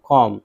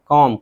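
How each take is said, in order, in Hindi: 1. m के बाद b की आवाज़ साइलेंट होती है। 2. m के बाद b की आवाज़ साइलेंट होती है।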